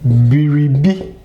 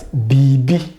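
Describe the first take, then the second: First: All three syllables are clearly pronounced. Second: The middle syllable is dropped, giving two syllables.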